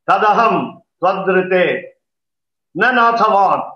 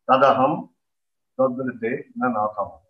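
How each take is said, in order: First: It is said loudly in a firm, commanding tone. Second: It is said softly in a low, humble tone. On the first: It is a command. "And say it aloud" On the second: It is a humble request. "Say it humbly in a low tone"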